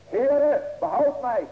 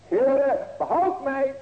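First: High, loud desperate cry for help. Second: High, loud plea for rescue; crying out. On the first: Preacher voicing sinking Peter crying to the Lord, loud desperate cry. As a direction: call out to the Lord like a sinking man. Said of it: "riep hij zeggende". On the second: Preacher voicing the needy heart crying to God, loud plea. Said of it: "hoor maar". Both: Acted.

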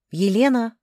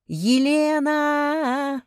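First: Calling out loudly for someone; raised, higher voice, a sharp summons. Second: Long drawn-out high holler; full-voiced, slow bellow for help; yelling. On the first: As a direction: call her name down the hall. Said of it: "громко позвала я". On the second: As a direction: scream the name, stretching it out. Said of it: "заорала я". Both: A narrator's reading.

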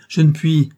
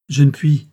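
First: Higher, louder, strained cry; anguished cry. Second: Loud, desperate cry; cried out. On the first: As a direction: break into a higher desperate wail. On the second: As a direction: throw it out in despair. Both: A narrator's reading. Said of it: "s'écria-t-elle".

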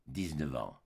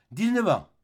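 First: Répété tout bas. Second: Éclat. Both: Acted. L'homme répète son temps de bagne.

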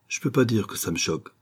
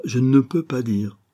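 First: Said in the usual way. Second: "ne" stressed, slow and careful. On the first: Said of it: "avoua simplement rougissant". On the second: Shown as a demonstration. Slow teacher correction stressing "ne". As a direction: Ruth corrects Martin, slowly stressing "ne" in "je ne peux pas dire". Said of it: "Pourquoi encore ne dites-vous pas".

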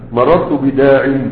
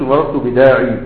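First: "مررت بداع" ending cut short on the ع, with no ي and a slow, careful delivery; correct pausal form. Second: "مررت بداعي" with the final ي sounded out as a long ee; wrong pausal form. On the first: Teacher showing students the correct pausal form "مررت بداع". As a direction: say "مررت بداع" stopping dead on the final عين. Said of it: "هتقف عليها بالعين". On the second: Teacher voicing the mistaken form "مررت بداعي" for students. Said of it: "لا، ما تقولش". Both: Shown as a demonstration.

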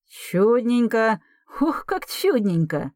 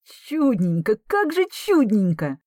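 First: High, slow gleeful cry; delighted exclaim. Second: High, unlike his usual voice, stunned joy; can't believe his ears; disbelieving delight. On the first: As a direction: savour the good news. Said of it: "воскликнул Герман Степанович". (радостное восклицание) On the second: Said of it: "не веря своим ушам". (изумлённая радость) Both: Acted.

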